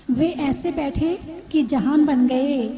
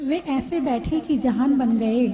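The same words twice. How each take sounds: First: "वे ऐसे बैठे कि जहान बन गए" said slower with a falling close; slow it down and let "कि" carry the weight; slow, weighty repeat. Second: Said in the usual way. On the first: Shown as a demonstration. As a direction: dwell on each word of "जहान बन गए".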